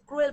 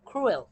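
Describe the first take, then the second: First: The first sound has no puff of air. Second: The first sound has a puff of air. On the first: The speaker calls it wrong. "এখানে কিন্তু ক্রুয়েল পড়বেন না আপনারা" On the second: The speaker calls it right. "সি এর উচ্চারণ এখানে ক্ষয়ের মতো"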